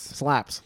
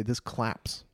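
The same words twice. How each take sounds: First: "Slaps" with a stretched s and falling tune; corrected word. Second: "claps" with a hard k, quoting a friend; mispronounced slang. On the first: Shown as a demonstration. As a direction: say "Slaps" with a long hissed s. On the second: Retold or imitated. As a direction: say "This claps" with a clear k sound instead of sl. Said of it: "As you would say".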